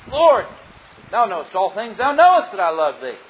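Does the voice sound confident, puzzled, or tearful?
confident. It is said in a confident, assured voice. The speaker is sure of the answer. "the first time answering with confidence"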